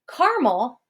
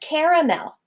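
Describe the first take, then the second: First: The word is said with two syllables. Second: The word is said with three syllables.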